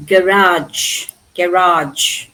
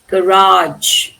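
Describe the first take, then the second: First: GARAGE as GA-rahj, said twice; British first-syllable stress. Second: GARAGE as guh-RAHJ; American last-syllable stress. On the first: Teacher repeats where British English stress is, first syllable. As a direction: put the weight on GA in GARAGE. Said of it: "In British English, the stress is". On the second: Teacher contrasts it with British English, last-syllable stress. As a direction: land on a long RAGE in GARAGE. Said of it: "Here it is garage". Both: Shown as a demonstration.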